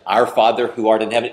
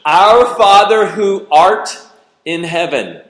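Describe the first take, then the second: First: Fast, rote recitation; quick mechanical prayer by memory; rattled-off rote prayer. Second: Put-on slow, loud, higher, grandly old-fashioned; loud, drawn-out pompous prayer voice; mock-formal prayer. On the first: Retold or imitated. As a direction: rattle it off without meaning it. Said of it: "is that what moves the heart of God?". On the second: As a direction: ham up the King James phrasing. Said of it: "How many of you talk like that?".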